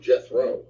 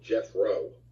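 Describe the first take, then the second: First: The middle consonant is a 'th' sound. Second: The middle consonant is an 'f' sound. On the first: The speaker calls it wrong. "I was always calling him Jethro, like T H R O W" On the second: The speaker calls it right. "he actually pronounces it Jethro. It's like J E F F R O"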